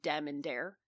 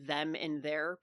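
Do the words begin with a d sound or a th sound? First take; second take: d; th. First: The words begin with a hard d sound. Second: The words begin with a soft th sound. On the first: "people saying dem and dare" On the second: "instead of saying like them and their"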